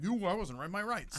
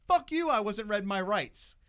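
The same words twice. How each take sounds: First: Self-parody of a clueless indignant guy, not shouted. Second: Slow, loud, raised-pitch indignant protest; retold outburst of righteous indignation; retold defiance. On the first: Retold or imitated. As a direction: replay the protest as a silly, entitled whine. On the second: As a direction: defy the officer loudly, drawing the words out.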